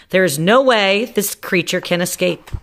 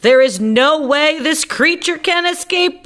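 First: Said in the usual way. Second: High squeaky insistence; squeaky repeat. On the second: Acted. Doctor Varmint insists to the panicked crowd, high and squeaky. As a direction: squeak it louder and higher than before to calm them. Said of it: "I repeat".

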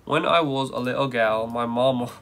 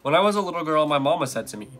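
First: Put-on British reading; hammed British vowels, r dropped; British accent. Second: Said in the usual way. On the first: Shown as a demonstration. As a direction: try a British accent on the poem. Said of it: "read it in a British accent". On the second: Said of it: "I'm just gonna read it".

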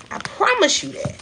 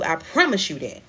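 First: Much higher, pushed up into the top of the range; a sudden high-pitched promise; high emphatic repeat. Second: Said in the usual way. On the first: Shown as a demonstration.

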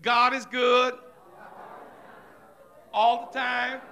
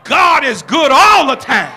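First: "God is good all the time" tossed off quiet and automatic; mumbled church slogan without feeling; rote church talk. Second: "God is good all the time" shouted loud from the heart; preached out at full force; spirit-filled shout. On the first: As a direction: say it like empty happy talk. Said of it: "you know how we get in church and we say". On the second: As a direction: proclaim it so the whole church feels it. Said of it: "unless that get in your spirit and say". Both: Shown as a demonstration.

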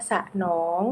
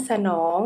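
First: สะหนอง split as สะ-หนอง; syllable-by-syllable reading. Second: Said in the usual way. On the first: Shown as a demonstration. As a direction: sound out สะหนอง, separating both syllables. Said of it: "อ่านว่าสะหนอง". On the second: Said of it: "คำว่าสนอง".

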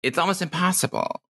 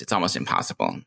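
First: It's almost impossible, high and light; higher new voice. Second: It's almost impossible, dropped low into baritone; old deep voice. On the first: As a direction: lift it up into the new voice. New voice vs old voice. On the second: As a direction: sink right down into the old voice. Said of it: "If I try to go back to that, to my old voice". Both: Shown as a demonstration.

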